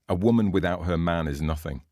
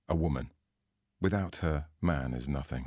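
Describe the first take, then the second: First: It runs on without a pause after woman. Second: There is a pause after woman and man.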